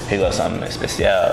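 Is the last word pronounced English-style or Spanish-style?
Spanish-style. The last word has a Spanish-sounding pronunciation.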